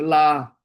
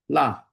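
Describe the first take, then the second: First: 拉 drawn out and held; 拉 as a wrongly lengthened syllable; long LA. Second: 拉 said short and cut off; one quick, short 拉. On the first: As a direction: stretch the vowel of 拉. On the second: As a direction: keep 拉 brief, no lengthening. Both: Shown as a demonstration. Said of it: "拉长".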